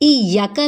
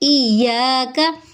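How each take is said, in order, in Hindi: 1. 'y' के बाद का स्वर छोटा है। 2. 'y' के बाद का स्वर लंबा है। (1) "इयाका नहीं" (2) "बल्कि इयाका ... एक अलिफ के बराबर लंबा करेंगे"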